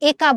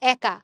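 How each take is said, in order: First: The first vowel is a plain e sound. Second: The first vowel is an altered, opener e sound. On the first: The speaker calls it wrong. "একা বলতেছি না" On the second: The speaker calls it right. "আমরা বলতেছি একা"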